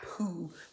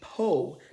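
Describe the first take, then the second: First: The vowel sounds like 'oo'. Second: The vowel sounds like 'oh'. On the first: The speaker calls it wrong. "not Pooh" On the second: The speaker calls it right. "It's supposed to be Poe"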